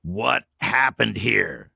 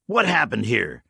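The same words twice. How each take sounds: First: Slow, deliberate, every word weighed; slow repeat. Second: Said in the usual way. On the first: Acted. Old man pressing the stranger again, slow and deliberate. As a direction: repeat it slowly, pressing for an answer. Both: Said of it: "repeated slowly".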